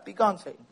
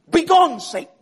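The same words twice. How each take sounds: First: It is said in a weak, meek tone. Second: It is said in a forceful, angry tone.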